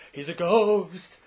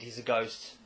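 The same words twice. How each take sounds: First: Loud, slow, drawn-out wail on "ghost"; mock spooky ghost. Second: Said in the usual way. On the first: Host joking that the dead boy returns, spooky ghost wail. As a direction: stretch "ghost" into a playful haunting wail.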